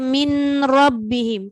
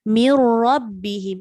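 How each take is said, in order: First: The n is pronounced clearly before the r. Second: The n merges fully into the r sound. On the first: The speaker calls it wrong. "Tak ada orang baca min rabbihim, kan susah" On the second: The speaker calls it right. "kita bunyi ra sepenuhnya"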